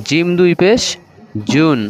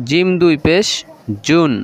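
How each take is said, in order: The two takes are said the same way.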